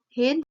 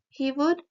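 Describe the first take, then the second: First: The words merge into one short syllable. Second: Both words are said in full.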